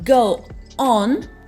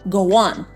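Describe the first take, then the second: First: The words are said without a linking sound. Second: A small w sound links the words.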